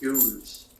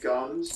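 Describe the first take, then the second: First: The vowel is a long 'oo' sound. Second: The vowel is a short 'uh' sound. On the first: "They said goons" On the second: "they didn't say gums"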